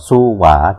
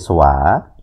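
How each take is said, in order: First: It is said as two syllables. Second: It is said as one syllable.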